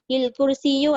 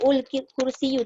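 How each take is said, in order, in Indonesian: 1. Kata ini diawali dengan vokal i. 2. Kata ini diawali dengan vokal u. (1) "jangan pula kita sebut il" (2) "tak boleh"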